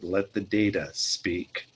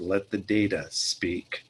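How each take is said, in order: First: It is said in a deep voice. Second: It is said in a deep voice.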